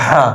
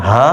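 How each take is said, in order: First: "হা" with a tight, rasped h; throaty ha. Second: "হা" with an easy, open h; no throat squeeze on "হা"; light ha. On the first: Teacher warning against mixing letters, constricted h in "হা". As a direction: push the h of "হা" through the throat. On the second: Teacher warning against mixing letters, light h in "হা". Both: Shown as a demonstration. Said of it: "দুইটা হরফ আলাদা আলাদা".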